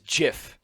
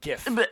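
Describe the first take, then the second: First: It begins with a soft j sound. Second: It begins with a hard g sound. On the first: The speaker calls it right. "It is pronounced like the goddamn peanut butter" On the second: The speaker calls it wrong. "not GIF"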